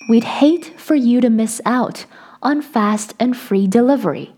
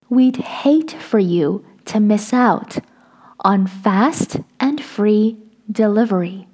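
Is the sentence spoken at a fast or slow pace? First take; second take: fast; slow. First: The sentence is spoken at normal, quicker speed. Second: The sentence is spoken slowly and deliberately.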